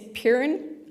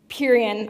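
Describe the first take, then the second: First: The name ends without an added '-ian' syllable. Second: The name ends with an added '-ian' syllable. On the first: The speaker calls it right. "which is the correct way to pronounce it" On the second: The speaker calls it wrong. "I always say this case name wrong, I say it Purian"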